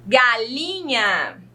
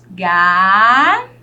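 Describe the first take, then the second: First: Said in the usual way. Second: "Galinha" broken into ga, li, nha with long gaps; slow, loud syllable count-out of "Galinha". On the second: Shown as a demonstration. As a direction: hold each syllable of "Galinha" on its own, pausing between. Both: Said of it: "Quantas sílabas eu tenho nessa palavra".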